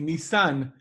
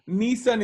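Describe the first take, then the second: First: The stress is on the last syllable. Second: The stress is on the first syllable. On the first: It names the month. "with the accent on the last syllable" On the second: It names the car company. "the name of the car company"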